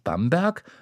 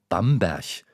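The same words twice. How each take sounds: First: It is said in standard German. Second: It is said in Franconian dialect.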